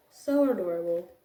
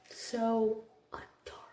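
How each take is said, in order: First: Said in the usual way. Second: Soft unvoiced whisper, almost to herself. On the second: Real, not acted. Teacher gushing over a kindergartner, whispered fondly. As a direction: breathe it out as a fond whisper. Whispered then repeated aloud.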